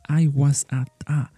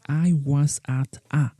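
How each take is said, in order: The two takes are said the same way.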